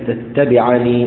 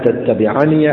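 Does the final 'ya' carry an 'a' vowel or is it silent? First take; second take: silent; a vowel. First: The final ya is pronounced without a vowel. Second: The final ya is pronounced with an 'a' vowel. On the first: The reciter pauses on the word. "وفي حال الوقف يقرأ بإثباتها ساكنة" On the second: The word is joined to what follows. "في حال الوصل يثبتها ويفتحها"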